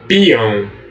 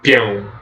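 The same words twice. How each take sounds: First: The i sound is strong and intense. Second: The i sound is weak and short. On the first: The speaker calls it right. "o I ele é forte, ele é pronunciado com muita intensidade" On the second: The speaker calls it wrong. "não é peão"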